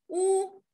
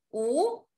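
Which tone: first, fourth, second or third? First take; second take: first; second. First: The pitch stays high and level. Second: The pitch rises from middle to high.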